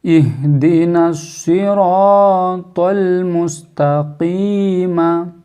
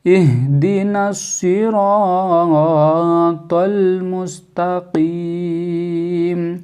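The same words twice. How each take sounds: First: Slow chant ending मुस्तकीमा on an open "maa"; sung, unstopped recitation. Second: Slow chant ending Mustakim on a closed "m"; sung, stretch the "ee", then close on m; sung, stopped recitation. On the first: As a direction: chant with long vowels, voicing the final "a". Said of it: "मुस्तकीमा नहीं पढ़ेंगे". (sung, धीमी तिलावत, आख़िर में "मा") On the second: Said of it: "रुकेंगे तो मुस्तकीम हो जाएगा". (sung, खिंची तिलावत, "म" पर ठहराव) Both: Shown as a demonstration.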